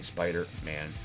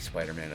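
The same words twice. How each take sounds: First: The name has a pause between its two parts. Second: The name is said smoothly without any pause. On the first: The speaker calls it wrong. "I don't say Spider-Man" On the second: The speaker calls it right. "I say Spider-Man. ... I don't pause"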